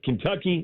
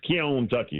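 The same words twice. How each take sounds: First: It is said with an ordinary standard pronunciation. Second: It is said with an old-fashioned regional pronunciation. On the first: This is not how the older man said it. "It's not Kentucky" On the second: This is how the older man said it. "As his grandfather used to pronounce it"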